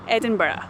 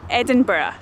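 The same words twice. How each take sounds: First: It is said the way Edinburgh locals say it. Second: It is said the way Edinburgh locals say it.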